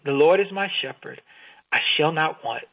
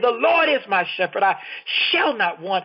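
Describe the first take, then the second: First: It is read plainly, with little energy. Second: It is said with bursting energy and dynamism.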